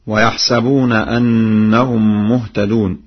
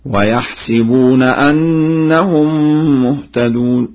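First: Said in the usual way. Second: Slow, higher recitation, "ويحسبون" with sin on short i; Warsh reading. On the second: Shown as a demonstration. Teacher demonstrates Warsh's reading, chanting "ويحسبون" as yahsibuna. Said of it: "بكسر السين هكذا".

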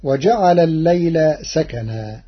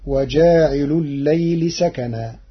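First: "وجعل الليل" as waja'ala l-layla, short a after jim; verb form, short vowels. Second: "وجاعل الليل" as waja'ilu l-layli, long a after jim; participle with genitive. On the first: Teacher citing the verse before Warsh's reading, short jim vowel. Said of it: "بألف بعد الجيم". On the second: Teacher showing the resulting sentence, long jim vowel and genitive ending. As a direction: lengthen "وجاعل" and end "الليل" in i. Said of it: "فتصير الجملة". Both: Shown as a demonstration.

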